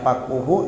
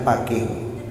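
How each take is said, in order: First: The vowel after the q is u. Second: The vowel after the q is i. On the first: This is the well-known reading. "dengan didomahkan qafnya" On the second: This is a reported alternative reading. "dikasrahkan huruf qafnya"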